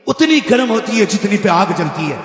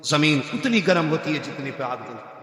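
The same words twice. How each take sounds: First: "उतनी" stressed at normal volume, falling end; emphatic repeat. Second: Low and soft, "उतनी" gently marked; soft low delivery. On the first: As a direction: say it out clearly, hitting "उतनी". Saying repeated at full voice. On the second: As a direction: murmur it low, "उतनी" slightly leaned on. Saying repeated, first time soft. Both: Acted.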